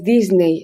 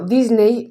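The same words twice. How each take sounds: First: The name is pronounced the English way. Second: The name is pronounced the Spanish way. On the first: "en inglés" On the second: "lo voy a pronunciar de- en castellano"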